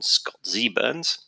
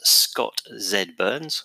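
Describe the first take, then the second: First: It is said in an American way. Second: It is said in a British way.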